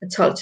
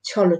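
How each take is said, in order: First: Each word ends on a bare consonant. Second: Each word ends with an added 'o' vowel. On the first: The speaker calls it wrong. "ছল না" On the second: The speaker calls it right. "হবে ছল, ছল"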